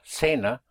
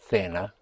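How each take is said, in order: First: The first consonant sounds like an s. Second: The first consonant sounds like a th.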